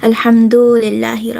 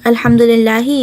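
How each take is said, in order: First: A vowel is lengthened with an added two-beat stretch. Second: The vowels are kept short, with no added lengthening. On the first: The speaker calls it wrong. "you would add a wow, so like a mad, a two haraka mad" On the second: The speaker calls it right. "instead of saying"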